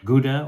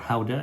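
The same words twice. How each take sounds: First: The word is said with an English pronunciation. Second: The word is said with a Dutch pronunciation.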